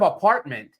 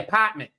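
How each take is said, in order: First: The R sound is pronounced clearly. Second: The R sound is dropped, Boston style. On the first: "instead of apartment" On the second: "they would say apartment"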